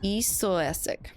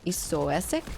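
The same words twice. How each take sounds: First: "Isoesic" slowly, with a falling end; best shot at "Isoesic", drawn out; careful name reading. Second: "Isoesic" as an unsure question; tentative name reading. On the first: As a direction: sound out "Isoesic" slowly and settle it. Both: Real, not acted. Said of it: "That's my best shot".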